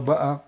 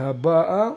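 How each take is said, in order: First: The stress is on the second-to-last syllable. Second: The stress is on the final syllable. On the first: Those who had already come. "זה מלעיל" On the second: Those who are coming now. "זה מלרע"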